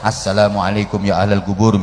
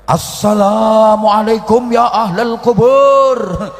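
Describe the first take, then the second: First: The greeting is said softly and quietly. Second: The greeting is said loudly and forcefully. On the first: "alon-alon mawon" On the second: "Banter ngene"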